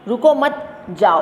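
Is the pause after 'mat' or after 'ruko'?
after mat. The pause comes after 'mat'.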